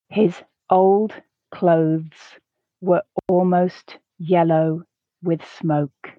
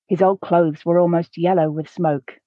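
First: The sentence is read slowly. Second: The sentence is read at a natural pace. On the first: "The first time, I'll read it slowly so that you can grasp the words" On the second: "The second time, I'll read at a more natural pace"

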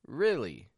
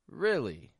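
First: The first vowel is a short ih sound. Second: The first vowel is a short ih sound.

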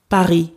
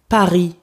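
Both takes have the same delivery.

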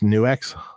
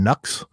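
First: The name is pronounced like 'Nuex'. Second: The name is pronounced like 'Nux'. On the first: The speaker calls it right. "But actually it's Nuex" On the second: The speaker calls it wrong. "I used to call that one brand Nux"

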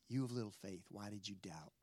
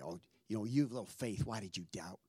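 First: It is said in a gentle tone. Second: It is said in a condescending tone.

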